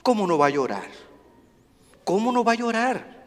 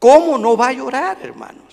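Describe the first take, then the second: First: Hushed question. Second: Said in the usual way. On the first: Real, not acted. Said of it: "quiet then repeated rhetorical question". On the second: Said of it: "same question repeated louder".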